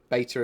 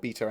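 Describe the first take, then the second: First: It is said in an American accent. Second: It is said in a British accent. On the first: The speaker calls it wrong. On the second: The speaker calls it right.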